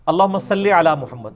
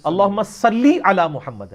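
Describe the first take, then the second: First: "صلی" said salle, ending in e; everyday Urdu "salle" for "صلی"; mistaken short vowel. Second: "صلی" said sallee, with a held ee; slow down and stretch "صلی" to a clear sallee; careful Arabic "sallee" in "صلی"; corrected long vowel. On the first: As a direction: read "صلی" casually as salle. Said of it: "یہ غلط ہے". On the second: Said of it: "لام زیر لی ہوتا ہے". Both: Shown as a demonstration.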